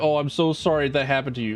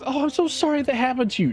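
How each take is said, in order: First: It is said in a sarcastic tone. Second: It is said in a sincere tone.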